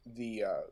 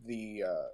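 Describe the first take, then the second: No difference in how they are said.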